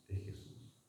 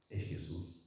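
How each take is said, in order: First: "es Jesús" whispered, no voice at all; a reverent whispered "es Jesús". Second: "Es Jesús" said low and much softer; quiet, reverent "Es Jesús"; hushed. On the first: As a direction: breathe "es Jesús" as a pure whisper. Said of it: "repeat turns to whisper". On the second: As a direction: drop the voice on "Es Jesús". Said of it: "repeated phrase, fading". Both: Shown as a demonstration.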